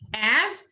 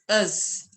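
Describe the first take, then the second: First: The vowel is full and clear. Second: The vowel is reduced to a short schwa.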